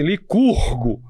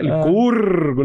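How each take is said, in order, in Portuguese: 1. O R do nome é apagado. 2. O R do nome é pronunciado. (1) "Eu falo assim" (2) "não é assim que você fala?"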